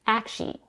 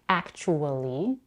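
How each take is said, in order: First: The word is said with two syllables. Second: The word is said with four syllables. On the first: "reduces this word to two syllables" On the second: "as a four-syllable word"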